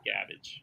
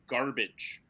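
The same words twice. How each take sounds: First: It is said in a Boston accent. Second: It is said in the speaker's ordinary accent.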